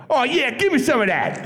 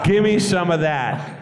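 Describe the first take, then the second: First: Mock seductive line through laughter; cheesy come-on. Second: A slower, savoured flirt line; re-savouring the line, mock smooth; slow cheesy come-on. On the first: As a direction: lay on the smarmy come-on. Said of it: "I went". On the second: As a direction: drawl it out like a lounge lizard. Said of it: "I got to say that to Bea Arthur".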